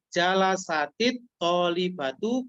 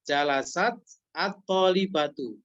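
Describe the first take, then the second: First: The words are linked with an added i vowel. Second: The words are said without the linking vowel.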